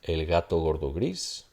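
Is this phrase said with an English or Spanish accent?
Spanish. The g sounds are soft and fricative. The speaker calls it right. "So Spanish"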